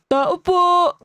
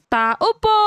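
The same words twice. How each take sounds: First: It is said in a put-on, boyish voice. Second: It is said in a natural, girlish voice. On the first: The speaker calls it right. "Dapat pala lalaki" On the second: The speaker calls it wrong. "Ay, mali"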